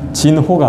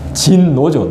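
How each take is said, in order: First: The second syllable begins with an h sound. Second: The second syllable begins with an n sound. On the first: The speaker calls it wrong. "진호가 아니고" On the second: The speaker calls it right.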